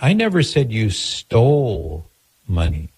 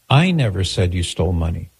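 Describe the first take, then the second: First: The stress is on the word stole. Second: The stress is on the word I.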